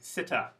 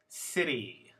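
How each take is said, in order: First: The final vowel is a reduced uh sound. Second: The final vowel is a clear ee sound. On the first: The speaker calls it wrong. "should sound like this" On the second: The speaker calls it right. "Here there is no schwa"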